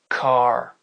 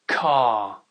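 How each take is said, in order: First: It is said in an American accent. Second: It is said in a British accent. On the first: "l'accent américain après" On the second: "l'accent britannique d'abord"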